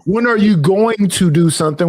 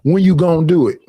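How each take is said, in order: First: "When are you going to do something?" with each word separate; fully pronounced "When are you going to do something?"; careful standard pronunciation. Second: "When you gonna do it?" run together, gonna as "gohn"; casual Southern "When you gonna do it?"; Southern pronunciation. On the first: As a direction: enunciate "going to" in full. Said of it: "Now, we don't say". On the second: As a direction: drop the are and shrink "gonna" to one syllable. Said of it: "We say". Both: Shown as a demonstration.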